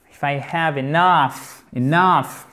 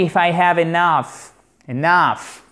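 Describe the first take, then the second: First: Enough said slowly, stress on nough; slow it down and land on nough in enough; slower model, enough stressed at the end; slow stress demo. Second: Enough stressed on the second syllable, nough. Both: Shown as a demonstration. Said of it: "accent tonique sur la seconde syllabe".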